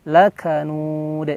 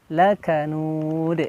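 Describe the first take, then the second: First: The final d is released with a bounce. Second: The same.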